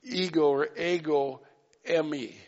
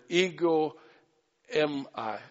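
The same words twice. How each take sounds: First: "emi" run together as one Greek word; corrected Greek pronunciation. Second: "ego em I" said as English words; mispronounced Greek. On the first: Preacher correcting his own Greek, careful pronunciation. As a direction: offer two tries at "ego", then "emi" as one word. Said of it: "but it's, it's like". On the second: Preacher trying the Greek for the congregation, mispronounced. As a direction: read "em I" as two separate English words. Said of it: "that's not how you pronounce it". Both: Shown as a demonstration.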